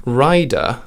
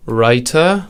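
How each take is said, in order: First: "rider" said with a voiced d; clear d. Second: "writer" said with a clear t; crisp t. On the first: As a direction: land the d in "rider". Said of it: "the nice duh in rider". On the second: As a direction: hit the t in "writer". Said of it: "nice ta in writer". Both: Shown as a demonstration.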